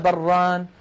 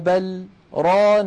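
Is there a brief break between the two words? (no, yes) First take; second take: no; yes. First: The two words run together without a break. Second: A short silent break falls after the first word. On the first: It could be heard as one single word. The speaker calls it wrong. "ولو وصلناها لقلنا بران" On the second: The first word is a separate particle. The speaker calls it right. "لاحظوا أني سكت سكتة قصيرة لم أتنفس فيها"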